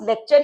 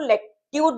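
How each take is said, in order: First: The middle sound is a 'ch' sound. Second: The middle sound is a 't' then 'y' sound. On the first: This is the everyday pronunciation. "Real life में आप इसको pronounce लेक्चर ही करेंगे" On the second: This is the pronunciation used for writing shorthand. "Shorthand में हम इसको लेक्ट्यूर बोलेंगे"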